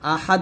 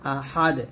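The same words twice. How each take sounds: First: The final d stops flat without an echo. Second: The final d is released with a bouncing echo. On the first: The speaker calls it wrong. "এরকম আহাদ বলবেন না" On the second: The speaker calls it right. "আহাদ এরকম"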